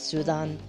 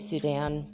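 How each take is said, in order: First: The name is said with Spanish pronunciation. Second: The name is said with English pronunciation. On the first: "in Spanish it's Sudan" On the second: "I say Sudan"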